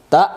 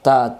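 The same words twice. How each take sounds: First: তা punched and cut short; hard hamza stop. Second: Said in the usual way. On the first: Shown as a demonstration. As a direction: hit তা and stop abruptly. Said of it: "আওয়াজ শক্ত করে পড়তে হয়". (তা শক্ত করে থামা)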